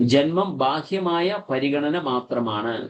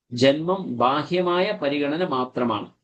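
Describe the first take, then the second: Both takes have the same delivery.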